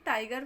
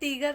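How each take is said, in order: First: The first vowel sounds like 'eye'. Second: The first vowel sounds like 'ee'. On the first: The speaker calls it right. "टाइगर पढ़ेंगे" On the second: The speaker calls it wrong. "टीगर नहीं"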